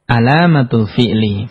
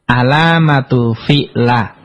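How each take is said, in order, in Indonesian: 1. Kata terakhir diakhiri dengan vokal i. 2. Kata terakhir diakhiri dengan vokal a. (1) "Harus dibaca" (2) "nggak boleh dibaca"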